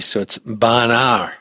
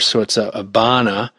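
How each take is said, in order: First: The R is dropped and an R is added at the end. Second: The R is dropped and it ends in a vowel. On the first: "you've got an add an R at the end because it's an A" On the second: "you have to get rid of the R"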